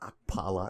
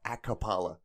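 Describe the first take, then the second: First: The k runs straight into the p. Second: An extra vowel separates the k and p. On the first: The speaker calls it right. "My last name is" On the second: The speaker calls it wrong.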